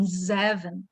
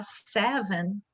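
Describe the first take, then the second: First: "zeven", with a buzzing Z in place of the initial S. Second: Said in the usual way. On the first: Shown as a demonstration. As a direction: start "zeven" on a voiced Z, as learners living in Belgium do. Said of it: "ele tem um som de Z". ("zeven" com som de Z no lugar do S inicial) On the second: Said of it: "ao invés de falar seven".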